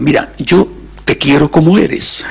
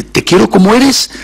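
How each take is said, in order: First: Said in the usual way. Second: Higher, louder, "te quiero como eres" pushed up; emphatic repeat. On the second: Retold or imitated. Preacher repeating words to God, more emphatic. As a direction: lift it with fervour on the repeat.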